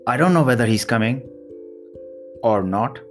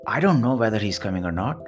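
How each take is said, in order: First: There is a pause after coming. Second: It flows without a pause after coming.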